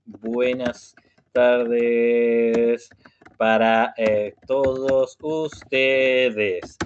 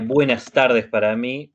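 First: Buenas tardes stretched out very slowly; slow teacher greeting for beginners. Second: Said in the usual way. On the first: Shown as a demonstration. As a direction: drag out each syllable for learners. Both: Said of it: "si yo hablo muy despacio".

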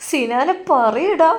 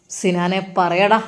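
First: High, slow wailing പറയടാ; mother wails at Sinan to tell, high and drawn out; crying plea. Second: A policewoman slowly demanding Sinan speak; police demand. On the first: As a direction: beg her son slowly, voice pitched high in tears. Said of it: "ഉമ്മ അവിടെ നിന്ന് ഉറക്കെ കരയുകയാണ്". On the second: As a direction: press him slowly like a cop. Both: Acted.

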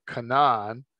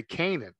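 First: Canaan said as kuh-NAHN; alternative pronunciation. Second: Said in the usual way. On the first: Shown as a demonstration. Teacher showing how some people pronounce the name, Canaan as kuh-NAHN. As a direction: stress the second syllable of Canaan, with an open AH. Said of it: "some people could pronounce it". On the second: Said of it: "we all usually just say".

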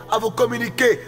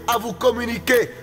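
Both takes have the same delivery.

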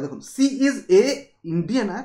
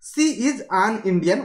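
First: ସି is ଏ Indian read as the wrong option, with a pause before Indian; wrong article read out. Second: ସି is ଆନ୍ Indian read a little slower, with ଆନ୍ said clearly; correct article stressed. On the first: Teacher shows students the wrong option, ଏ before Indian. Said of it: "ତ ଏ Indian କେବେ ଲାଗିବନି।". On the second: Teacher gives students the corrected sentence, ଆନ୍ said clearly. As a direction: lean on ଆନ୍ before Indian. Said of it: "article ଆନ୍ ଲଗେଇବା ପାଇଁ ପଡ଼ିବ।". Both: Shown as a demonstration.

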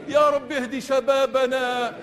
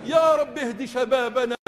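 No difference in how they are said.

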